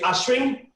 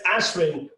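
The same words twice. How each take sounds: First: The name has an Indian pronunciation. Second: The name has an American pronunciation. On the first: "in India we say Ashwin" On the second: "In America it's Ashwin"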